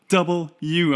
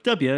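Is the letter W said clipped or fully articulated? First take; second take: full; clipped. First: The letter name is said firmly, every syllable clear. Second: The letter name is clipped and slurred together. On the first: The speaker calls it right. "it's like a firm double U" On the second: The speaker calls it wrong. "never pronouncing my W's properly"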